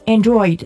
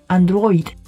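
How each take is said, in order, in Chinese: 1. 用英语的发音念。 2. 用意大利语的发音念。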